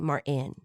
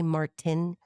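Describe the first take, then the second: First: The T sound is dropped. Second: The T sound is clearly pronounced. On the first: "They say Martin. ... Somebody doesn't pronounce the T" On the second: "They don't say Martin"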